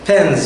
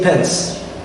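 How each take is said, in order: First: The word ends with a buzzing z sound. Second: The word ends with a hissing s sound. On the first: The speaker calls it right. "So we say pens" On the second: The speaker calls it wrong. "We do not say pens"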